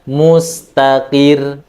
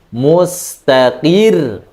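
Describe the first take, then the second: First: The final syllable is said plainly, without extra force. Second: The final syllable is pressed with strong, louder force. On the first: The speaker calls it wrong. "Bukan bacanya mustaqir, itu tidak nabr" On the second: The speaker calls it right. "tapi mustaqir, dikuatkan lagi suaranya"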